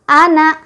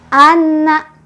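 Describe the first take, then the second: First: The n is short with no nasal hum. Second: The n is doubled but has no nasal hum. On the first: "tasydidnya tidak ada, otomatis tidak ada dengung sama sekali" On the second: "Tasydidnya sudah ada, tapi dengungnya mana?"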